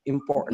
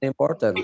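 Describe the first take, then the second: First: "important" with the t stopped, straight into n; held-back t. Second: Said in the usual way. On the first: Shown as a demonstration. Teacher correcting students, "important" with a held t before n. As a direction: hold the t in "important", no vowel after it. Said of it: "Bacanya important". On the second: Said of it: "bukan important".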